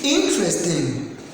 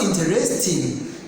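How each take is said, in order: First: The stress falls on the first syllable. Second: The stress falls on a later syllable. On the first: The speaker calls it right. "The correct pronunciation is interesting. Because the stress is here on this I" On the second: The speaker calls it wrong. "We don't pronounce interesting. That is not correct"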